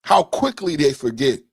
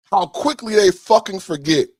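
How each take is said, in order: First: Said in the usual way. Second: Louder, higher, bitter; angry outburst. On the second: Real, not acted. Repeating the line to viewers, now angry and louder. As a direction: let the anger spill over on the repeat.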